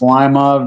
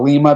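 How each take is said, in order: First: It is said the local Ohio way. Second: It is said the original foreign way.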